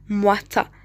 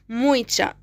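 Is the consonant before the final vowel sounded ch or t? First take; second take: t; ch. First: The consonant is a plain t sound. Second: The consonant is a ch sound. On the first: "يعني تي ما بينطقوها تي، يعني كذا مثلا مواتا" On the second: "بالبرتغالية رح نقرأ هيك مويتشا"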